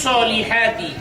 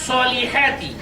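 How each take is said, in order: Both takes have the same delivery.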